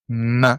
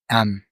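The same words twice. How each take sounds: First: It is said as a bare consonant sound. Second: It is said as the full letter name. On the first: "but we pronounce it like this" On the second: "The name of the letter"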